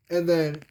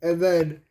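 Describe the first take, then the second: No difference in how they are said.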